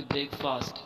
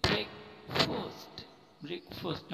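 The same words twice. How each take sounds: First: "ब्रेकफास्ट" with a long "aa" in fast; wrong pronunciation. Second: "ब्रेकफास्ट" slowly, with a lightened, rounded "fost"; correct pronunciation. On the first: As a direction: say "ब्रेकफास्ट" as break-FAAST. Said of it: "ये गलत है". ("ब्रेकफास्ट", लंबा "फा") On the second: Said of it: "हल्की आवाज़". ("ब्रेकफास्ट" हल्की आवाज़ में, "फॉस्ट") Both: Shown as a demonstration.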